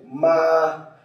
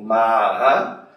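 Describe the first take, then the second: First: The pitch stays high and level. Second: The pitch goes up and then down. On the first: It means mother. "no primeiro tom" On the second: It means horse. "no terceiro tom"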